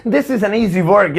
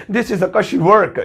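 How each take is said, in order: First: Very slow, with a laugh; slow teaching read; slow model sentence. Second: Very slow, word by word; slow the slang one for learners; slow teaching read; slow slang version. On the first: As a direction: say it slowly for learners. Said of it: "जैसे मुझे कहना है". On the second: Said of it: "तो अंग्रेज बोलेंगे". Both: Shown as a demonstration.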